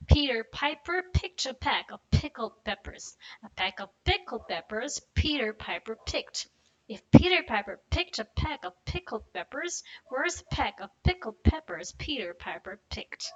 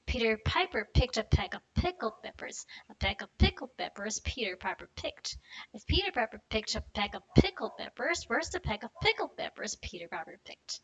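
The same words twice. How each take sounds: First: Slow and careful, every P clear; slow tongue twister. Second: Brisk run through the twister; faster tongue twister. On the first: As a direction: go slow, sound by sound. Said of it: "go slow". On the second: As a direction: pick up the pace, keep the words linked. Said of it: "do a little bit faster". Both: Shown as a demonstration.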